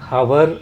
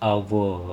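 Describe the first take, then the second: First: The word begins with an h sound. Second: The word begins directly with a vowel sound. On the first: The speaker calls it wrong. "ఈ పదాన్ని హవర్ అని పలకకూడదు" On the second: The speaker calls it right. "Phonetic language ప్రకారం అవ్వో"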